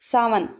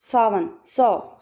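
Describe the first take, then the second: First: Said in the usual way. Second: सावन drawn out very slowly so सौ comes through; teacher slowly sounding out सावन, सौ; slow sound demo. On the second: Shown as a demonstration. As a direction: stretch सावन, सौ so the सौ vowel is clear. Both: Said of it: "पौ निकल रहा है".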